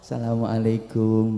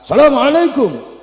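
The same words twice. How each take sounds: First: It is said softly and calmly. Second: It is said loudly at a high pitch. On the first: It is a humble greeting to a respected elder. "nadanya halus, kalem" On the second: It is a greeting for anyone one meets. "dengan nada tinggi, suara keras sambil mengangkat kedua tangan"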